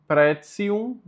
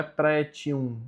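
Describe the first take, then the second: First: "pretium" slowly as PREH-tsee-oom; TI as tsi. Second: "pretium" said PREH-chee-oom; TI as chi. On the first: Teacher giving the correct form, TI said as tsi. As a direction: put a ts in "pretium". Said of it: "então fica ticium". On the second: Teacher showing the form to avoid, ch sound. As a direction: soften the T of "pretium" to ch. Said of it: "não é pretium". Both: Shown as a demonstration.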